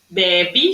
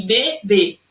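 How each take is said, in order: First: BEBE as "BEH-bee", stressed open first vowel. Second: BEBÊ split, both ê closed, stress last. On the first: Teacher showing pupils the unaccented word, BEBE with open é. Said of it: "sem acento nenhum". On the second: Teacher showing pupils the accented word, BEBÊ with closed ê. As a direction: say BE-BÊ landing on closed final ê. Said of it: "Ó como é que eu falo". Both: Shown as a demonstration.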